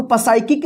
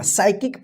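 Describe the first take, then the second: First: पसाइकिक with a wrongly sounded "pa" in front; mispronounced with P. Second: साइकिक starting straight on the "s" sound; silent P. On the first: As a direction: show the mistake पसाइकिक, quickly, P audible. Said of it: "इसको पसाइकिक नहीं पढ़ेंगे". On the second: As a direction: say साइकिक with no trace of P. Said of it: "साइकिक पढ़ेंगे". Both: Shown as a demonstration.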